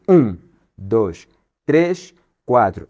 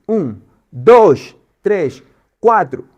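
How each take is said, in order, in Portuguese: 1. O primeiro e o terceiro tempos são fortes. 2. O segundo e o quarto tempos são fortes. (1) "onde o primeiro tom é forte e o terceiro tom é forte" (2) "em vez de estar no um, está no dois e está no quatro"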